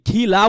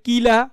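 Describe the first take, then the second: First: The first k has a strong puff of air. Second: The first k has no puff of air. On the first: The speaker calls it right. "এই খিলা বলছি আমি" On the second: The speaker calls it wrong. "অনেকে বলে কিলা, তা কিলা না"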